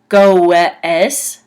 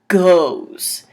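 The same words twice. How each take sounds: First: The word is sounded out following its spelling. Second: The word is said naturally, ending in a z sound. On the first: The speaker calls it wrong. "which if you were sounding it out, it would be goes" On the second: The speaker calls it right. "it's pronounced goes. G-O-Z"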